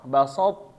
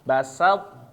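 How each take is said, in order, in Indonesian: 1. Suku kata 'sa' menggelap ke arah 'so'. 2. Suku kata 'sa' tetap jelas dan tajam. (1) "Jangan sampai sa-nya berubah jadi so ya" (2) "Jadi tetap sa-nya harus sa, yaitu sifat sa, sa yaitu dia tajam"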